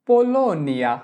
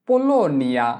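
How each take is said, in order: Both takes have the same delivery.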